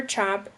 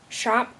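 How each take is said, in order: First: Said in the usual way. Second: "shop" opening on SH for chop; slow, careful "shop" with SH up front. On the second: Shown as a demonstration. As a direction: start "shop" on a hushing SH. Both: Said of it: "merging of S H and C H".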